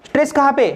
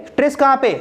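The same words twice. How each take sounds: Both takes have the same delivery.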